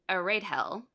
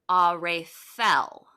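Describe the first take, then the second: First: The middle consonant is a plain D sound. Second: The middle consonant is a TH sound. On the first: The speaker calls it wrong. "before I knew that, I was pronouncing it" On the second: The speaker calls it right. "it's supposed to be; it's a T H noise"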